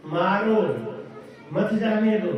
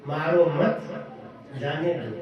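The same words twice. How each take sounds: First: मारो alone, break, then मत जाने दो together; pause after मारो. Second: मारो मत together, break, then lower जाने दो; pause after मत. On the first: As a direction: split it straight after मारो. (मारो के बाद विराम, फिर मत जाने दो) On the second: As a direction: split it after मत, letting जाने दो fall. (मारो मत के बाद विराम, फिर जाने दो) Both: Shown as a demonstration. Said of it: "ये बोलने के स्टाइल में फर्क हो गया".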